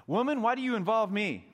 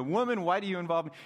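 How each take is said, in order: First: Loud, high, sharp brush-off; harsh rebuke. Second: Quick brush-off. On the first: Jesus rebuking his mother loudly. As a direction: snap it like a scolding son. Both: Pretend. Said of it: "maybe he didn't say it that way exactly".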